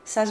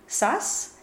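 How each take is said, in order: First: The final S is voiced like a Z. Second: The final S is a voiceless hiss. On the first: "together, that sigma will voice to match the M of matheni" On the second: "if you say them separately, the sas is unvoiced"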